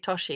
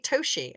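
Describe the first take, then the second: First: The name is said the British way. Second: The name is said the American way. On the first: "every British person will say Toshi" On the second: "they both say Toshi"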